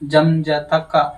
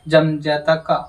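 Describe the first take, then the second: The two takes are said the same way.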